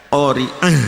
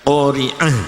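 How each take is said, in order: Both takes have the same delivery.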